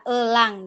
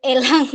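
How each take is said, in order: First: Elang read as uh-lang, schwa first; elang, drawn-out uh opening; correct schwa vowel. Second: Elang with a clear eh, eh-lang; full open eh opening elang; open E vowel. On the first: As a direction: say elang with a neutral uh at the start. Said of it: "sebenarnya bacanya adalah elang". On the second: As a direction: say elang the Sumatran way, starting eh. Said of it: "mungkin jarang pakainya". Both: Shown as a demonstration.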